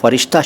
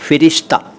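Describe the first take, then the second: First: The first vowel is 'a', as in farishta. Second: The first vowel is 'i', as in firishta. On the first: The speaker calls it wrong. "फ़रिश्ता शब्द गलत है" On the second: The speaker calls it right. "सही शब्द है फ़िरिश्ता"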